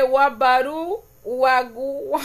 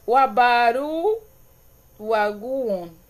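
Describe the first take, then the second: First: Sounding out Wabaru slowly, syllable by syllable; slow careful reading. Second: Slow retry. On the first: Streamer slowly sounding out a viewer's Garífuna comment. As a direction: stumble through the Garífuna word slowly. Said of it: "vamos a leer despacio". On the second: Streamer retrying a Garífuna word for her viewers. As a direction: try the Garífuna word again, stretching it slowly. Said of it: "vamos a intentarlo de nuevo". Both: Shown as a demonstration.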